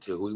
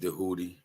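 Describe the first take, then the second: First: The name begins with a T sound. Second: The name begins with a D sound. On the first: This is the pronunciation taught by outsiders. The speaker calls it wrong. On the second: The D marks the name as meaning God. The speaker calls it right. "We been saying Dehudi"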